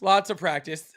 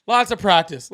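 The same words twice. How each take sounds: First: Laughing through lots of practice. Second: Said in the usual way. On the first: Real, not acted. Repeats it laughing.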